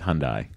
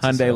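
First: The name is said not rhyming with Sunday. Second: The name is said to rhyme with Sunday. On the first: "In the UK, it's Hyundai" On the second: "like Sunday. that's how you pronounce it in America"

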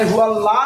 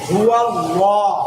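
First: The L in Allah is thin and light. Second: The L in Allah is heavy and full. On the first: The speaker calls it wrong. "হুয়া লা না হয়ে" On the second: The speaker calls it right. "লফজে আল্লাহকে মোটা করে পড়তে হয়"

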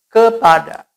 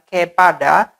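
First: The first vowel is a weak schwa sound. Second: The first vowel is a clear, full e. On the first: The speaker calls it right. "tapi kepada" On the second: The speaker calls it wrong. "bunyi huruf E ini bukan dibaca E, bukan kepada"

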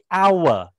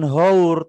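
First: The word begins directly with a vowel sound. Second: The word begins with an audible h sound. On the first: The speaker calls it right. "tapi awe" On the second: The speaker calls it wrong. "membacanya bukan haur"

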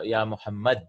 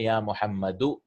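First: The name ends with no final vowel. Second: The name ends with a short -u sound. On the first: "in the general language, what happens is we don't say the endings" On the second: "you have to say ya muhammadu"

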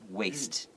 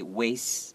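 First: The final T sound is clearly pronounced. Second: The final T sound is dropped. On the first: The speaker calls it right. "the proper way is with the T sound" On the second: The speaker calls it wrong. "we pronounce it.Without the T sound"

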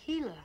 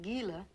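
First: The word is said with a Spanish pronunciation. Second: The word is said with an English pronunciation. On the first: The speaker calls it right. "It's Spanish. You say Gila" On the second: The speaker calls it wrong. "not Gila"

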